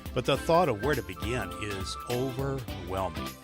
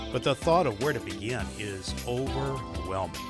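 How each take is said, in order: Both takes have the same delivery.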